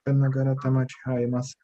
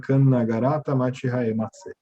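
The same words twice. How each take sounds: First: It is said softly, almost under the breath. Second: It is said at normal loudness.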